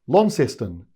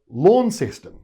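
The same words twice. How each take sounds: First: It is pronounced the Tasmanian way. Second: It is pronounced the mainland Australian way. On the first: "if you're in Tasmania, you call it" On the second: "the rest of mainland Australia call it"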